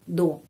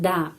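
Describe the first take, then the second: First: The vowel sounds like 'o'. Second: The vowel sounds like 'a'.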